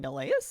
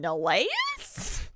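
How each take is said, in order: First: The pitch rises a little at the end. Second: The pitch rises very sharply at the end. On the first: It is asked as a question. "single question mark would be Neleus" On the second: It is asked as a much more emphatic question. "it's just much more severe for the double one"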